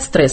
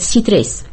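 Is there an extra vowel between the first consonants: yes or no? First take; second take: no; yes. First: The opening consonants run together with no vowel. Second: A vowel is inserted between the opening consonants. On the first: The speaker calls it right. "не говорят «стресс»" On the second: The speaker calls it wrong. "Они обязательно между согласными что-то вставляют"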